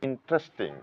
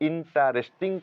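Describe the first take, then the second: First: One vowel is silent, giving three syllables. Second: Every vowel is sounded, giving four syllables. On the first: The speaker calls it right. "মূলত এটার উচ্চারণ কিন্তু ইন্টারেস্টিং। ... ইটাকে silent রাখতে হবে" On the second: The speaker calls it wrong. "বানানগত দিক দিয়ে এই শব্দটির উচ্চারণ আমরা ইন্টারেস্টিং করে থাকি"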